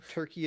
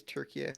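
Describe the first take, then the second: First: Said in the usual way. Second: "Turkey" said as Türkiye; native name pronunciation. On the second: Shown as a demonstration. Podcaster listing countries' own names, Turkish pronunciation. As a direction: give "Turkey" its Turkish ending, tur-kee-yeh. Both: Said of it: "Italy is Italia. Stuff like that".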